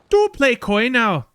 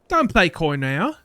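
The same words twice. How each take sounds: First: It is said in Kuno's put-on character voice. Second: It is said in the speaker's own voice.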